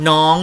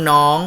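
The two takes are said the same way.

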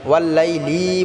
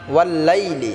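First: The short vowels are drawn out and stretched. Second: The short vowels are said quickly, not stretched. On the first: The speaker calls it wrong. "ওয়াল্লাইলি বললে হবে না" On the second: The speaker calls it right. "হরকতের উচ্চারণগুলিকে আমাদের তাড়াতাড়ি করতে হবে।"

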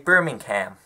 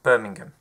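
First: It is said with an American accent. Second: It is said with a British accent. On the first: "I think I'm turning into an American" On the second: "not Birmingham"

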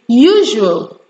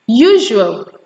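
The two takes are said the same way.

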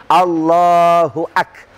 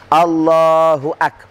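Both takes have the same delivery.

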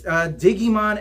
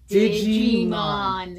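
First: The first part sounds like 'dig', hard g. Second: The first part sounds like 'didge', soft g. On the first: The speaker calls it wrong. "I'm brutalizing it" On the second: The speaker calls it right. "you're not digging, you're digi"

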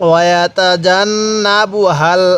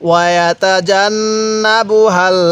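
Both takes have the same delivery.

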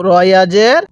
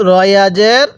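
Both takes have the same delivery.

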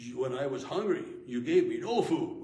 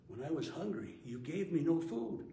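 First: The words are spoken in an angry tone. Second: The words are spoken in a sorrowful tone. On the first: The speaker is condemning the listeners. The speaker calls it wrong. "you don't read it with an angry voice" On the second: The speaker is hurt and grieved by the neglect. The speaker calls it right. "You want to read it"

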